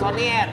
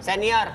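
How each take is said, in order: First: The first vowel sounds like o. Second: The first vowel sounds like e. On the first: The speaker calls it wrong. "Sonier tadi" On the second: The speaker calls it right.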